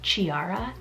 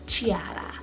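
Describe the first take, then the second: First: The name is said the American way. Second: The name is said the Italian way. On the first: "in America in general, I feel like we would just pronounce it Chiara" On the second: "I believe that's how you pronounce it"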